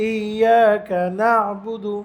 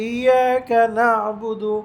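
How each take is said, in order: Both takes have the same delivery.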